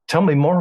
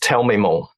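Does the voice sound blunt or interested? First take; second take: interested; blunt. First: It is said warmly, with lively interest. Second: It is said flatly, like a blunt command. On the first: It shows genuine curiosity about the other person. The speaker calls it right. "I'm intrigued" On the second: It sounds like a demand rather than interest. The speaker calls it wrong. "don't say it like that"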